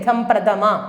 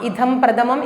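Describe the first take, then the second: First: The last word ends with a vowel. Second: The last word ends with an m sound. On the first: The speaker calls it right. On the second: The speaker calls it wrong.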